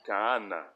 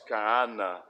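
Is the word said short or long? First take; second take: long; long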